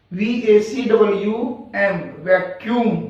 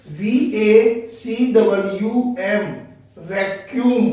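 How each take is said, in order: First: Said in the usual way. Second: Slow spelling. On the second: Shown as a demonstration. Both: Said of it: "sound आ रही है यू ए की".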